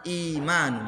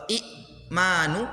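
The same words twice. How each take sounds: First: Imanu with the catch dropped, vowels flowing together; spoken form. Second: I'manu with a clear catch before the m, said slowly; i'manu read letter by letter; written form. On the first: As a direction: blend imanu smoothly as actually read. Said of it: "imanu jadinya". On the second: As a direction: say i'manu as spelled, stopping on the hamzah. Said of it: "bukan dibaca i'manu". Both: Shown as a demonstration.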